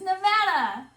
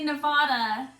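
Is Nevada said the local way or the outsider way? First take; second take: local; outsider. First: The word is said the way locals say it. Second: The word is said the way outsiders say it. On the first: The speaker is from the state. The speaker calls it right. "it's Nevada" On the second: The speaker is not from the state. The speaker calls it wrong. "when people come to Nevada and they say Nevada, we don't vote for them because it's not Nevada"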